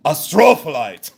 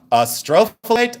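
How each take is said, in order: First: "astrophyllite" boomed as uh-STROOO-fuh-lite; imitated yell. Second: "Astrophyllite" as uh-STRO-fuh-lite, unexaggerated; "Astrophyllite" in a controlled voice, short fuh; measured pronunciation. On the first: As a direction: mimic a man yelling "astrophyllite", leaning hard on STRO. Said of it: "hear it one more time". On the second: Shown as a demonstration. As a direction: say "Astrophyllite" neatly with stress on STRO. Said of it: "I spelled it out".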